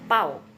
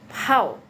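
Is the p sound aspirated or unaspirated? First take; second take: unaspirated; aspirated. First: The p is said without a puff of air. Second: The p is said with a puff of air. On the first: The speaker calls it wrong. "bukan bacanya pau gitu ya" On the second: The speaker calls it right. "Jadi P itu harus ada nafasnya"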